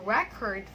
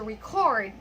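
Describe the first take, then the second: First: Record as a noun, REC-ord; stress on first syllable. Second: Record as a verb, re-CORD; stress on second syllable. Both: Shown as a demonstration. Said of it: "first verb and then noun".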